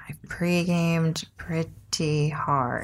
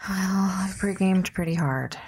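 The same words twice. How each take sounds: First: Drawn out, slow and deliberate; slow emphatic repeat. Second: Said in the usual way. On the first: Shown as a demonstration. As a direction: stretch each word out slowly.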